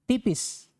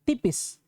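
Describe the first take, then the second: No difference in how they are said.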